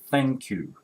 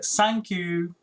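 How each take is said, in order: First: The first word begins with a th sound. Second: The first word begins with an s sound. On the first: The speaker calls it right. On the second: The speaker calls it wrong.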